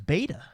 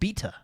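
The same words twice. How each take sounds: First: Beta is said with an American accent. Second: Beta is said with a British accent.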